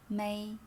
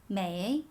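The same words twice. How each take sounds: First: It is said without any tone contour. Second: The pitch dips down and then rises. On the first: "M E I without a tone is may" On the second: "Make it with the sound uh-huh"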